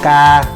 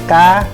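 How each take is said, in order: First: The pitch stays level and flat. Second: The pitch rises higher, then drops down. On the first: "tiếng ngang" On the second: "lên nữa rồi nhảy xuống"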